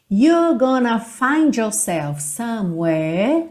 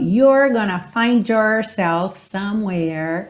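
First: The R sounds are soft, not curled. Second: The R sounds are curled, American style. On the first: "Percebe que eu não enrolei os R's agora" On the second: "E num sotaque mais americano"

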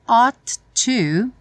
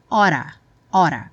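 First: Both words are said fully and separately. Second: The words merge into a reduced 'oughta'. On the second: "ele pronuncia oughta"

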